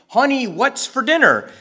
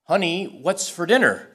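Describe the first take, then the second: First: It is said almost as a shout. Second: It is said at a normal speaking volume.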